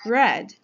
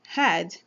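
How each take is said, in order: First: The word begins with an R sound. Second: The word begins with an H sound. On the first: The speaker calls it right. "this beautiful color called red" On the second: The speaker calls it wrong. "many times is pronounced as had"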